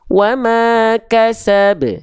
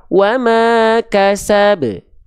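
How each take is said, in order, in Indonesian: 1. Pantulan konsonan akhirnya dilepas dengan bebas. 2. Pantulan konsonan akhirnya dilepas dengan bebas.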